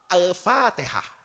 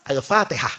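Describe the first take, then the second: First: "Al-Fatihah" drawn out slowly; slow recitation. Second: A low, solemn "Al-Fatihah"; sheikh reciting. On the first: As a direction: stretch it like a solemn cue. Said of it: "itu langsung ngomong". ("Al-Fatihah" diucapkan pelan dan panjang) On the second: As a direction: intone it like the opening of a prayer. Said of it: "langsung ngomong gini". ("Al-Fatihah" dengan suara rendah dan khidmat) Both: Retold or imitated.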